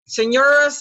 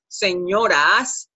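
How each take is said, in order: First: The final vowel is a reduced schwa. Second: The final vowel is a clear Spanish 'a'. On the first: It sounds like the masculine form. The speaker calls it wrong. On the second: It refers to women. The speaker calls it right.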